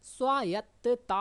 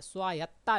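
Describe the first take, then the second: First: स्वायत्तता said slowly with a full doubled ता ending; स्वायत्तता spoken slow and firm as the right form; correct spelling said out. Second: स्वायत्ता said quickly, dropping the final ता; स्वायत्ता clipped short without ता, as the error; wrong form shown. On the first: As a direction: stretch स्वायत्तता out and lean on the final ता. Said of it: "स्वायत्ता नहीं होता". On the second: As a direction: toss off स्वायत्ता as the mistaken version. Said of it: "नहीं होता". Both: Shown as a demonstration.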